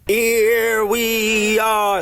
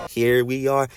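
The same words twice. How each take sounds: First: Long high drawn-out sing-out; game title call. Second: Said in the usual way. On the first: Retold or imitated. Vlogger imitating the ears' game title, high drawn-out call. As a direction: stretch each word out high and loud-ish. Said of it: "That's why it's called "Here we are".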